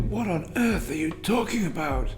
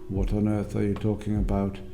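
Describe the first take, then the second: First: It is said with lively, varied pitch and stress. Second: It is said in a flat, even tone. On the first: The speaker calls it right. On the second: The speaker calls it wrong.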